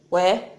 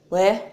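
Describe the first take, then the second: The two takes are said the same way.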